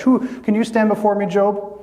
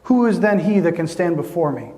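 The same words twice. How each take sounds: First: "Who" lifted higher and pressed as a direct challenge. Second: Said in the usual way. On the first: Shown as a demonstration. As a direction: throw "Who can you stand before me" straight at Job. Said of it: "This is God's charge". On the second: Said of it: "But I love this".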